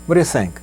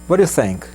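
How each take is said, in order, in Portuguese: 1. As palavras saem juntas e rápidas, meio engolidas. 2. As palavras saem juntas e rápidas, meio engolidas.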